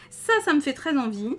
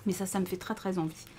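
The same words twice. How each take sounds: First: Louder, higher ça me fait très envie; craving the pattern aloud; eager emphasis. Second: Said in the usual way. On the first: Real, not acted.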